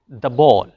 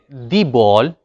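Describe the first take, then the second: First: The word 'the' is said plainly, unemphasized. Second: The word 'the' is said emphatically. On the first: "we should pronounce it the" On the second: "it means it is emphatic"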